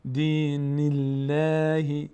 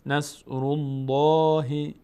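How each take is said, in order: First: الله with a thin l, slow chant; slow دین الله, thin lam; light Allah. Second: الله with a full thick l, slow chant; slow نصر الله, heavy lam; heavy Allah. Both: Shown as a demonstration.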